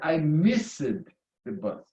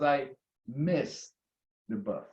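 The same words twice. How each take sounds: First: The ending of missed is an extra syllable. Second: The ending of missed is a plain T sound. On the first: The speaker calls it wrong. "which is a terrible sound, terrible pronunciation" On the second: The speaker calls it right. "The correct would be"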